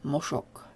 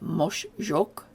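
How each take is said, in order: First: No y-like sound follows the sh sound. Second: A y-like sound follows the sh sound. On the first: The speaker calls it right. "we replace the J with an S" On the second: The speaker calls it wrong. "instead of being moshjok"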